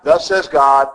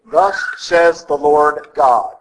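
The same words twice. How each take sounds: First: Said in the usual way. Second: Slow, deliberate, every word given weight; solemn, weighty proclamation. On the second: Shown as a demonstration. Priest showing the proper prophetic formula, slow and solemn. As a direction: proclaim it with full authority, unhurried.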